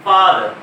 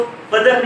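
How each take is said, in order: First: फादर with a long open आ; long aa in father. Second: फदर with a clipped short अ; wrong short a. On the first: Teacher to class, modelling फादर with long आ. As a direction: stretch the आ in फादर. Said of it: "जैसे हम लोग लिखते हैं लफ्ज फादर". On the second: Teacher showing students the wrong short फदर. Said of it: "हम उसको फदर नहीं कहते". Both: Shown as a demonstration.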